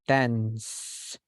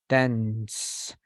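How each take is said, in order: No difference in how they are said.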